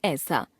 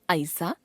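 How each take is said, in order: First: Said in the usual way. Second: ऐसा with a mistaken first vowel, "aisa" as glide; wrong pronunciation. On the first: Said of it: "शुद्ध". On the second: Shown as a demonstration. Teacher showing a common error, ऐसा with gliding vowel. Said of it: "अशुद्ध".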